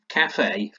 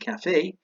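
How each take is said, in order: First: The stress is on the first syllable. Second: The stress is on the second syllable. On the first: This is how English speakers say it. "we put the stress at the beginning" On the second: This is how the original language says it. "which should be cafe"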